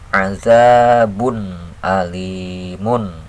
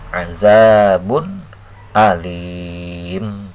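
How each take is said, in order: First: The final word ends with the full '-un' ending. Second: The final word stops short without the '-un' ending. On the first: The reading continues without stopping. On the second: The reader stops at this word.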